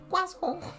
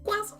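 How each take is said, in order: First: It is said in a plain, normal voice. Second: It is said in a high, put-on voice. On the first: It is the ordinary English way to say it. "when speaking English, I say croissant" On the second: It imitates a funny internet meme. "I can't go that high because of my voice"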